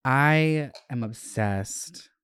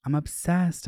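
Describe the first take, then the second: First: Obsessed. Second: Gushing. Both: Real, not acted.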